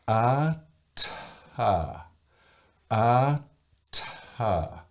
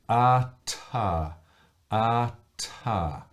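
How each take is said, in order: First: It is said slowly, with a silence before the burst. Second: It is said at a normal, quick pace.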